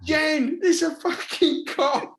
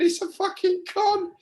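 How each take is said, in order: First: Retold disbelief. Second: Much higher, incredulous protest; retold scoff. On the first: To Jen, about the elephant art: a high scoffing protest. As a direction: scoff that it's a con, pitched high. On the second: To Jen, about the elephant art: a high incredulous scoff. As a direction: squeal that it's a con. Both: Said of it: "And I'm going".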